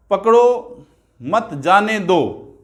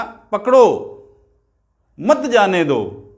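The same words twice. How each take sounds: First: "पकड़ो मत" run as one phrase, then जाने दो slowly; pause after मत. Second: पकड़ो loud and alone, long pause, then "मत जाने दो"; pause after पकड़ो. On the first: Teacher showing how a pause changes meaning, pause after मत. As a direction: break after मत, so it means don't catch, let go. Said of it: "मत के बाद मैंने थोड़ा ठहराव दिया". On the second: Teacher showing the hold-him meaning, long pause after पकड़ो. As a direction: punch पकड़ो, stop, then join मत to जाने दो. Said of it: "इस बार मैंने पकड़ो के बाद क्या दी? यति दे दी". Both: Shown as a demonstration.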